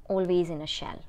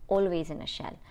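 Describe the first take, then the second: No difference in how they are said.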